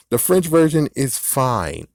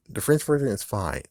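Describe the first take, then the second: First: Slow, louder insistence that it's fine; fine, said slowly and firmly; emphatic. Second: Said in the usual way. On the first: Shown as a demonstration. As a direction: lean hard on every word.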